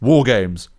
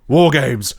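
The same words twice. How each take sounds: First: It is said with the least intensity. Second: It is said with more intensity.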